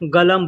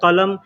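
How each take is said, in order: First: The word begins with a g sound. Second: The word begins with a k sound. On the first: This is how people say it in speech. "लेकिन बोलने के लिए लोग गलम बोलते हैं" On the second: This is the written form. "वैसे लिखा जाता है कलम"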